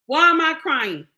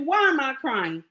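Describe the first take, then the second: First: Higher and louder, pressing the question; louder insistent repeat. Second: Said in the usual way. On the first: Real, not acted. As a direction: hit it harder the second time.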